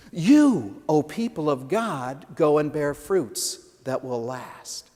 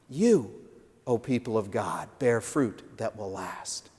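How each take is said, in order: First: Measured, open command to the people; voicing Jesus' command. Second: Hushed solemn charge. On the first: Pastor giving Jesus' charge to the church, measured. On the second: Acted. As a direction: let it land gently as a blessing. Closing repeat of the charge.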